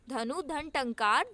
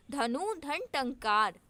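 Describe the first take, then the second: First: Slow repeat. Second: Slow split reading. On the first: Teacher repeats the split for students, slow and rising. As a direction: say धनु धन टंकार again, slowly, rising on टंकार. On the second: Teacher slowly splits धनु धन टंकार for students, deliberately. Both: Shown as a demonstration. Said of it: "Dhanush टंकार".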